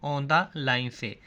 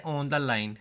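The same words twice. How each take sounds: First: On the line stretched out slowly, each word drawn apart; slow emphatic answer. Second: Said in the usual way. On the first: Shown as a demonstration. Teacher spelling out the answer slowly for students. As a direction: drag the words out so students catch them. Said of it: "वो कहाँ से शुरू होगा?". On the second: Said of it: "वो कहाँ लिखा जाता है?".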